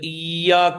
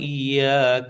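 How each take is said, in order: First: The 'ya' sound is pushed out heavily. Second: The 'ya' sound is said lightly. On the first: The speaker calls it wrong. "ചിലര് ഇയ്യാക്ക എന്ന് പറഞ്ഞ യാന് കുറെ ശബ്ദം കൊടുക്കുക" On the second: The speaker calls it right. "അതിന്റെ ആവശ്യമില്ല"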